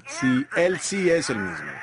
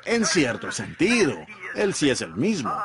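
First: Slow, with weight on "Él sí es el mismo"; firm correction. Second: Hedging church quote. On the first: Shown as a demonstration. Preacher correcting the church's hedge, slow and emphatic. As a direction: lean on "sí" and "Él", set the record straight. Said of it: "No, no, no". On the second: Retold or imitated. Quoting the church's hedge, mildly doubtful. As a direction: grant it half-heartedly, with a qualifier. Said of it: "Y la iglesia dice".

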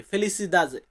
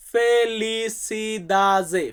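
First: Said in the usual way. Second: ফেলিসিদাজে drawn out slowly, syllable by syllable; ফেলিসিদাজে stretched for the class to copy; slow Portuguese word. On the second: Shown as a demonstration. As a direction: spell out ফেলিসিদাজে slowly for learners. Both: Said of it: "Portuguese ভাষাতে বলবো".

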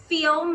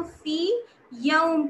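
First: "फी यौम" run together with a short "फी"; fuse "फी" and "यौम" into one word; wrong merged reading. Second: "फी यौम" with the ee of "फी" slightly stretched; lengthened vowel. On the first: Teacher shows students the wrong joined reading. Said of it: "नहीं कहेंगे". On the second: Teacher models the correct stretched reading to students. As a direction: hold "फी" a beat before "यौम". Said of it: "थोड़ा सा हम इसे खींचते हैं". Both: Shown as a demonstration.

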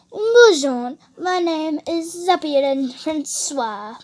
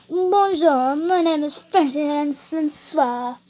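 First: Slow, showy French-accent demonstration. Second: Copied, hammed-up French accent; attempted French accent. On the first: Shown as a demonstration. Teaching how to do French, in a drawn-out French accent. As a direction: model a put-on French accent, stretching the name. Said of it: "You need to talk like this". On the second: Copying the French lesson, in an attempted French accent. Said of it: "That's how you do French".

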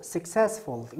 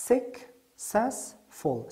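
First: Said in the usual way. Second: "Successful" very slowly as suc, cess, ful; syllable by syllable. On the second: Shown as a demonstration. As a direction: pause after each of the three syllables of "Successful". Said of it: "که سه هجا داره".

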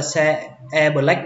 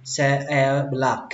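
First: "black" as Vietnamese "bờ-lách", short vowel; common Vietnamese mispronunciation. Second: "black" with an open, lengthened a; corrected English black. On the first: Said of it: "không phải là black". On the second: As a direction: draw out the open vowel in "black". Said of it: "cách đọc đúng là black". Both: Shown as a demonstration.

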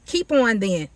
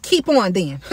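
First: Said in the usual way. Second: Dismissive tone. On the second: Shown as a demonstration. God daring the sorcerers, in a dismissive tone. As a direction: keep on then, brushing them off. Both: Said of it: "Like in that tone".

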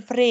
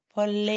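First: เฟร as one syllable with R after F; wrong R sound. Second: เฟล with a separate F, then clear L; correct L sound. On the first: Teacher names the student's error, R instead of L. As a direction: put an R straight after F in เฟร. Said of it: "ไม่เป็นเฟรค่ะ". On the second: Teacher corrects the student, clear L after F. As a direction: split เฟล into เฟ and เล, no R. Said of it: "ไม่เป็นเฟร". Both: Shown as a demonstration.

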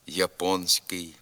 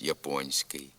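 First: «японський» with н hard before ський. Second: «японський» with н palatalized before ський; softened н. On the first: Teacher showing a common error, hard н in «японський». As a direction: say «японський» with an unsoftened н. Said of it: "замість". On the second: Teacher giving the correct form, soft н in «японський». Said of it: "вимовляється також пом'якшено". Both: Shown as a demonstration.

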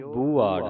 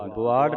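First: ਬੁਆੜ with a long "oo"; long vowel. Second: ਬੁਆੜ with a short "u"; wrong short vowel. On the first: Teacher reads the double mark, ਬੁਆੜ with long "oo". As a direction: say ਬੁਆੜ as "boo-aar", lengthening the first vowel. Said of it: "ਇੱਥੇ ਲੱਗੀਆਂ ਦੋ ਦਲੈਂਕੜਾਂ". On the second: Teacher warns against this reading, ਬੁਆੜ with short "u". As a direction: say ਬੁਆੜ as quick "bu-aar". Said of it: "ਬੁਆੜ ਨਹੀਂ ਪੜ੍ਹਨਾ". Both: Shown as a demonstration.

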